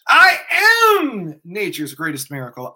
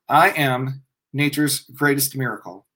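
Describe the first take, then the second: First: It is said with feeling and excitement. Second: It is said flatly, without feeling.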